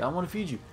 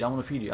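First: Higher, sweet cooing to a pet. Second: Said in the usual way. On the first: Real, not acted. Player cooing at a little alien creature, higher. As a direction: coax the little creature up high.

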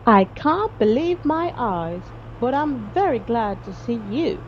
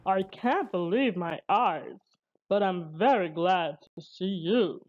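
First: Rescued hunter. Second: Lower-pitched character voice of a rescued man; rescued sea captain. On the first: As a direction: voice a relieved hunter, drawing out the words. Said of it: "said the man on the beach". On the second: Rescued captain greets Barnaby, low character voice. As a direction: voice a relieved seaman, kept low. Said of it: "said the man". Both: A narrator's reading.

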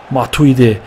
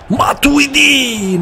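First: Said in the usual way. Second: Drawn-out goal call. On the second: Real, not acted. Gamer celebrating his scorer, long high stretched "Matuidi".

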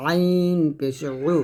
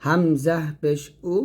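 First: আইন পেশ উ squeezed from mid-throat; pressed ain. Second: হামজা পেশ উ with unpressed উ from throat's start; hamza from throat's start. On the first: Teacher gives ain against hamza, throat-pressed আইন. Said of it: "চাপ দিয়ে". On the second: Teacher contrasts hamza with ain, unpressed উ. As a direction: release উ cleanly, no squeeze. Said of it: "গলার শুরু থেকে". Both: Shown as a demonstration.

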